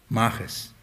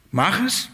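First: Mach es, low and quiet, falling; quiet firm order; low command. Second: Mach es, higher with a rising es; higher insistent order; raised command. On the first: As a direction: drop the voice on Mach es like a stern order. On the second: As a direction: push Mach es up as an insistent demand. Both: Shown as a demonstration. Repeated command, two takes.

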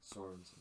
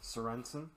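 First: Very quiet Sorensen, stressed SOR-en-sen; practising correct pronunciation. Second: Sorensen as a softer question, suh-REN-sen; questioning rise on Sorensen, middle syllable stressed; trying the pronunciation. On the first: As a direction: murmur Sorensen with stress on the first syllable. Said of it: "had to learn how to pronounce it". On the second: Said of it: "It sounds interesting that way". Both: Shown as a demonstration.

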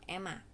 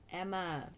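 First: Emma said the mistaken way; wrong pronunciation. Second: Emma said the proper English way; correct pronunciation. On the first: Vlogger showing how not to say Emma, mispronounced. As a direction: mispronounce Emma as a learner would. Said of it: "It's not Emma". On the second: Vlogger correcting listeners on Emma, correct pronunciation. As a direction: model Emma clearly in English. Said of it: "It's Emma". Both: Shown as a demonstration.

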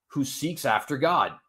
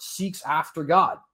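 First: Said in the usual way. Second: "seeks after God" picked out with firm, even weight; emphasis on "seeks after God". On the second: Shown as a demonstration. Preacher stressing the verse's last part, "seeks after God" said emphatically. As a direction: lean on each word of "seeks after God". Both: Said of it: "emphasis on that last part".

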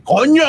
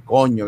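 First: "coño" exclaimed high and rising; emphatic exclamation. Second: "coño" said low with a falling end; well-intoned swearword. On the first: Host savouring Spanish swearwords, high exclaimed "coño". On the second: Host demonstrating castizo words, low falling "coño". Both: Shown as a demonstration. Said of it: "un coño bien entonado de decir".

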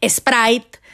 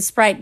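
First: "Sprite" como "espráit", con acento mexicano. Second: "Sprite" a la inglesa, empezando directo en la s; pronunciación en inglés. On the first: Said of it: "mi inglés es de acento así mexicano". (inglés con acento mexicano: "espráit") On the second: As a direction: di "Sprite" sin e inicial. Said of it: "en lugar de decir Sprite". ("Sprite" con pronunciación inglesa) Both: Shown as a demonstration.

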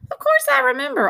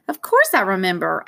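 First: Gentle, tender reassurance; softly. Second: Said in the usual way. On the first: A narrator's reading. Dad soothing his upset son, softly. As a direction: answer tenderly, with understated regret. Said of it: "he said softly".

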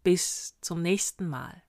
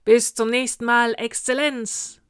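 First: Slow, measured prince's farewell; stately, spaced-out sign-off; resounding farewell. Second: Loud, higher army shout; booming salute in unison style; thundering reply. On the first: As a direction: take leave of the troops deliberately, without shouting. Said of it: "mit weit hinhallender Stimme". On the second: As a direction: thunder it back like troops on parade. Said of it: "donnerte das Heer". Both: A narrator's reading.

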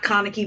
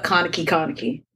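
First: Said in the usual way. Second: "Kaneki, Kaneki" lower, the name doubled for emphasis; emphatic doubled name. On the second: Shown as a demonstration. Clarifying which version of the character, "Kaneki, Kaneki" said low and pointed. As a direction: drop the pitch and lean on "Kaneki, Kaneki". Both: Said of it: "not Kaneki, but Kaneki, Kaneki".

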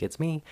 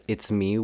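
First: Creepy. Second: Said in the usual way. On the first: Retold or imitated. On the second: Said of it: "really, like, creepily".

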